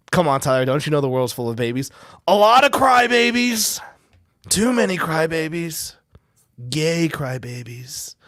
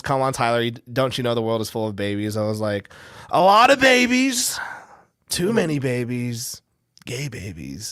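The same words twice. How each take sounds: First: Big blustery Trump voice, loud on crybabies; hammed-up Trump rant; Trump impression. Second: A hint of Trump, replayed; retold Trump voice. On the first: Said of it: "Stupid Trump voice". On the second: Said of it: "your Trump voice sounds like Shane Gillis".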